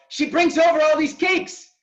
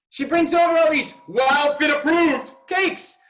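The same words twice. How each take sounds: First: Loud, high, teasing grumble; mock complaint. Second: Slower, drawn-out, loud and high; slow mock emphasis. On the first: Coach teasing Ariel about her cakes, loud mock complaint. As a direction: tease her like a fake accusation. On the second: Coach repeats the cake accusation slower and heavier. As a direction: stretch every word as if accusing. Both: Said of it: "I'm totally exaggerating".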